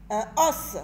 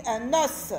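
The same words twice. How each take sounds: First: "Un os" with a break before os; os without liaison. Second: "un os" linked, sounding like un-nos; liaison. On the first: Teacher first reading the words apart, no liaison in "Un os". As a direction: say Un, then os, not carrying the n over. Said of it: "On fait la liaison". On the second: Teacher showing children the liaison, "un os" run together as un-nos. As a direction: carry the n of un onto os. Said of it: "On fait la liaison, on dit". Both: Shown as a demonstration.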